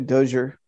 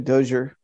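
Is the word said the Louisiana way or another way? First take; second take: Louisiana; Louisiana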